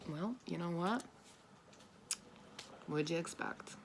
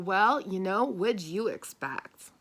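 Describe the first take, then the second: First: It is said in a mild, matter-of-fact tone. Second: It is said in a harsh, mocking tone.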